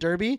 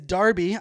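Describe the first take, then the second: First: The first vowel sounds like the vowel in 'her'. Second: The first vowel sounds like the vowel in 'car'. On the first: The speaker calls it wrong. "I was pronouncing it Derby" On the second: The speaker calls it right. "I was corrected earlier this morning. It is Derby"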